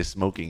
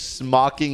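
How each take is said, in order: First: "smoking" with a long o, the right way; corrected "smoking". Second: "smocking" with a short o, like smock; "smocking" instead of smoking; mispronounced smoking. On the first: Shown as a demonstration. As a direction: say "smoking" properly. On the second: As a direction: say "smocking" as the chat misspelled it. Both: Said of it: "he meant to say smoking".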